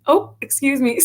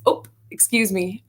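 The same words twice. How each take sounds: First: Higher sing-song "Oh, excuse me" in an exaggerated upper Midwest accent; sing-song Dakota apology. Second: Put-on light upper Midwest "Oh, excuse me" in a mild Dakota accent; polite bump-into-someone Oh, lightly imitated; North Dakota politeness. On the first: Guest exaggerates North Dakotans apologizing, high sing-song accent. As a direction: lift the Oh high, overly polite Dakota lilt. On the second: Guest imitates locals bumping into someone, mild Dakota accent. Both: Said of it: "it's always".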